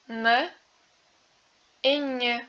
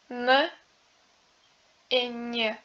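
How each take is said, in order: The two takes are said the same way.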